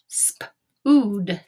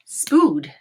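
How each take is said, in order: First: "Spood" split into sp and ood; sounded out. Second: Said in the usual way. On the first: Shown as a demonstration. Teacher testing a made-up word, "Spood" in pieces. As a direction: tap out "Spood" in separate sounds. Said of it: "tap this word out and say it". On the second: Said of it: "and say it".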